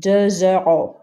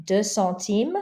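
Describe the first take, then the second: First: Deux euros with a Z sound linking into euros; Z liaison. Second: Deux centimes with no sound after Deux; no liaison. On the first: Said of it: "the X sounds like a Z". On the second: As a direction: keep Deux open before centimes. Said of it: "Don't pronounce the X". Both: Shown as a demonstration. Teacher contrasting the two phrases.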